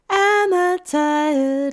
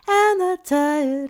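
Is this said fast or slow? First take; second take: slow; fast. First: The words are said at a slow pace. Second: The words are said at a fast pace. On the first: "So slow down" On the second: "A little faster"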